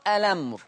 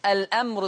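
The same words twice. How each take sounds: First: "الأمر" as a-lamr; no glottal stop in "الأمر"; hamza transfer. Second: "الأمر" as al-'amr; original hamza. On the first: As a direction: run l into the vowel in "الأمر". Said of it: "بشيل الهمزة وانقل الحركة". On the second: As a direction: glottal stop after the l in "الأمر". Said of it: "الأمر تقرأ". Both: Shown as a demonstration.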